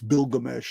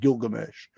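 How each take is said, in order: First: The name begins with a B sound. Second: The name begins with a G sound. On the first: This is the original form of the name. The speaker calls it right. "The original pronunciation is with a B" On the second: This is the later, familiar form of the name. The speaker calls it wrong. "not Gilgamesh"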